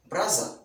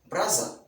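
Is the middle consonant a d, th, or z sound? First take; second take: z; z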